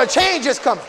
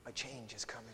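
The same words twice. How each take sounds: First: "change" shouted high, falling hard at the end; loud proclamation. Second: "change" said low and soft, almost to himself; hushed. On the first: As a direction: proclaim it to the rafters. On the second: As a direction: drop it down, let them lean in. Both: Real, not acted.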